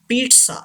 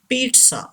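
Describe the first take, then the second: Both takes have the same delivery.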